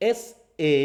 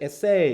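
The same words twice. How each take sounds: First: এসএ as "ESS" then a separate "ay"; stress on first syllable. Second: এসএ as a light "e" then a strong "SAY"; stress on second syllable. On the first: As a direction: split এসএ after the s, weight on "ess", as the noun. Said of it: "ওটা এস এর সাথে আলাদা". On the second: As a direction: lean on the final "say" of এসএ, as the verb. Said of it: "verb হিসাবে". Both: Shown as a demonstration.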